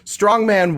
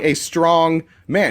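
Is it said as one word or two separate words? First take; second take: one word; two words. First: It is said as one word. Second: It is said as two separate words.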